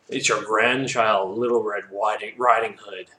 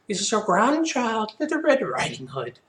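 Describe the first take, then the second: First: It is said in the reader's normal voice. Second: It is said in a put-on little girl's voice.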